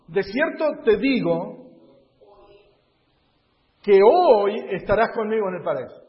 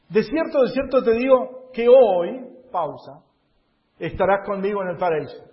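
First: There is a pause before 'hoy'. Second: There is a pause after 'hoy'.

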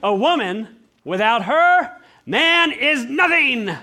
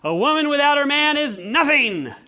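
First: It has pauses after woman and after her. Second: It is said smoothly without internal pauses.

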